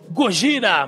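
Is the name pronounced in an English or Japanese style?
Japanese. The name is said with emphatic Japanese pronunciation.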